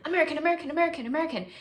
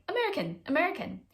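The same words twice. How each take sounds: First: High, louder, run-together burst of repeats; excited overload. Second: High-pitched, separate little exclamations; excited spotting. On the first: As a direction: fire them off like a brain on overload. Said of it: "it was like this overload". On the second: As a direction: call out each one as a fresh discovery. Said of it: "heard an American accent here and there". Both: Retold or imitated.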